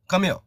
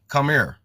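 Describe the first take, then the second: First: Come here is said in a Southern Georgia accent. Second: Come here is said with a Louisville 'ur' vowel. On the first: "like we say in the South" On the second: "They say come here"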